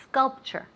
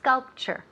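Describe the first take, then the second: First: The word begins directly with an s sound. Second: The word begins directly with an s sound.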